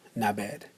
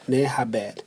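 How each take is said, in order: First: The words are blended into one short word. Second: Both words are said fully and separately. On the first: "It's going to sound more like" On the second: "it's never going to be said like that"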